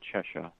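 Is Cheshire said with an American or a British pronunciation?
British. The name is said with a British pronunciation. This is how people in the UK say it. "it's more proper there to say Cheshire"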